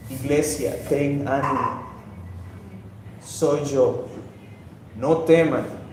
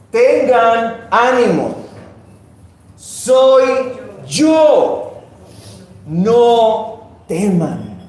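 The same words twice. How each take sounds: First: Soft, low, consoling words; quiet, low voice of comfort; tender reassurance. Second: Loud, slow, ringing proclamation; Jesus calling over the storm to his disciples; commanding call. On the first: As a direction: comfort them gently, with pauses between phrases. Same words, now consoling the church. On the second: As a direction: call out each phrase high and firm, with long pauses. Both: Acted.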